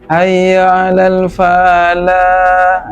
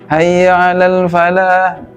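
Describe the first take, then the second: First: The 'fa' syllable is drawn out long. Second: The 'fa' syllable is kept short. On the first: The speaker calls it wrong. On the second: The speaker calls it right.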